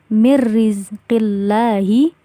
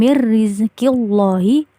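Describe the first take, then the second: First: The L in Allah sounds light and thin. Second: The L in Allah sounds heavy and thick. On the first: The speaker calls it right. "Bacanya yang benar adalah mirrizqillahi" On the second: The speaker calls it wrong. "bacanya bukan mirrizqillahi"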